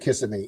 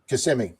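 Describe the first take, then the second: First: It is said the way newcomers say it. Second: It is said the way locals say it. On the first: This is how first-time visitors say it. The speaker calls it wrong. "the first time there pronounces it Kissimmee" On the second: This is how people from there say it. The speaker calls it right. "how do you guys pronounce it?"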